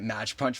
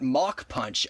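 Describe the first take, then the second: First: The first word ends in a tch sound. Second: The first word ends in a k sound. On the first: The speaker calls it wrong. "I've been calling it Match Punch for years now" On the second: The speaker calls it right. "actually pronounced Mach Punch"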